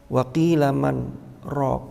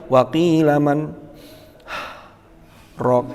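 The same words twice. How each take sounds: First: There is a brief pause without a breath. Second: There is a full stop with a breath. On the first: The speaker calls it right. "ini harus sakta" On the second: The speaker calls it wrong. "Wakaf kan cirinya harus ambil nafas. Tidak boleh"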